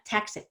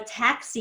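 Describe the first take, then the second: First: The final vowel is cut short. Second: The final vowel is held long. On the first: The speaker calls it wrong. "it's not taxi" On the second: The speaker calls it right. "you really have to have like stretch out the E more than you think"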